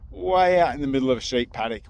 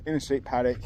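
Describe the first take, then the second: First: Said in the usual way. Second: "in" stressed, correcting "middle". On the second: Shown as a demonstration. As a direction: lean on "in", not "middle". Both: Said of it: "well, not the middle".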